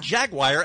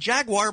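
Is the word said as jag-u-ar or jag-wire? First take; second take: jag-wire; jag-u-ar. First: The word is said as jag-wire. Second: The word is said as jag-u-ar. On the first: This is the newer way of saying it. The speaker calls it wrong. "All of a sudden it became Jaguar" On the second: This is the long-familiar way of saying it. The speaker calls it right. "after it had been Jaguar my whole life"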